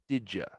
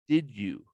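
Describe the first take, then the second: First: The words run together quickly as 'didja'. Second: The two words are said separately and fully.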